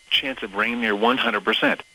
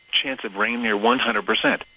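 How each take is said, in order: Both takes have the same delivery.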